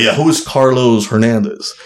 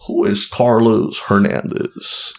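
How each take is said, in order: First: Said in the usual way. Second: Imitated judge, slowly drawn out; slow, deliberate mock interrogation; slow pointed question. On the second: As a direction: draw out each word of the question.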